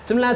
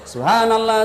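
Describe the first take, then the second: First: It is said very fast and slurred. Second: It is said slowly and clearly.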